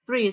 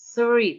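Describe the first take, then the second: First: The th sound is relaxed, without the tongue out. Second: The th sound is exaggerated with the tongue out. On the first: This is how someone used to it says it. "kalau udah biasa" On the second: This is how a learner practises it. "Emang kalau belajar itu belajar itu agak lebay"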